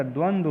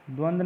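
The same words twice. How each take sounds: First: द्वंद्व as "dwan-dwa"; correct pronunciation. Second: द्वंद्व clipped to "dwand"; wrong pronunciation. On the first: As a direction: sound the second dv in द्वंद्व. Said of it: "होता है". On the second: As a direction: drop the final v from द्वंद्व. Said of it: "नहीं होता". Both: Shown as a demonstration.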